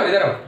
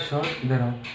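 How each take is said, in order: First: It is said loudly and forcefully. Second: It is said softly and quietly.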